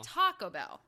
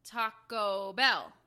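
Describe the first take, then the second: First: Taco Bell with the weight on TA, Bell thrown away; imitated wrong stress. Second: Taco Bell slowed right down, loud, with weight on Bell; demonstrated correct stress. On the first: Mimicking co-host's wrong Taco Bell, stress on TA. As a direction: punch the first syllable of Taco, drop Bell. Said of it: "But you're saying". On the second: Shown as a demonstration. Correcting co-host on how it's said, stress on Bell. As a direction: draw it out and land firmly on Bell. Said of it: "What is it supposed to be?".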